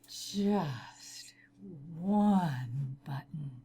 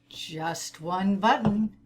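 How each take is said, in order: First: It is said in a sultry, seductive voice. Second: It is said in a plain, ordinary voice.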